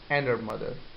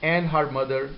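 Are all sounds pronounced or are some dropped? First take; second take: dropped; pronounced. First: Some sounds in the phrase are dropped. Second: Every sound in the phrase is pronounced.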